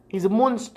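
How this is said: It is said in a put-on British accent.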